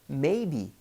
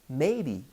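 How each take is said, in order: No difference in how they are said.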